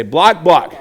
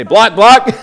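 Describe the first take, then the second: First: Said in the usual way. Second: Louder, higher chant to lead the class; loud call. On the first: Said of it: "Say it with us". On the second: Shown as a demonstration. Coach leading the class in a chant, loud and high. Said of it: "So everyone say".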